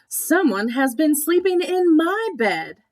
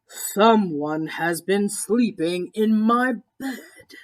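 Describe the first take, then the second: First: It is said in a medium-sized voice. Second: It is said in a great big deep voice.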